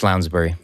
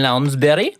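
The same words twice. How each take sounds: First: The name is said in a plain ordinary way. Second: The name is said in a put-on regional accent. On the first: This is the normal way to say the name. "No, it's Lounsbury" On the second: This is how it is said where the speaker grew up. "how you say it in the native tongue. From where I grew up"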